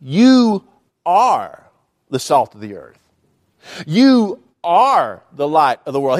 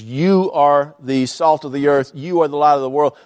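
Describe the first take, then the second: First: Slow, weighty You are with pauses; emphatic declaration. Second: Said in the usual way. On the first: Shown as a demonstration. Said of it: "What Jesus said was". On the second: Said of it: "the words you in both of those sentences".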